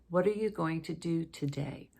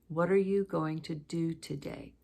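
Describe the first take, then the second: No difference in how they are said.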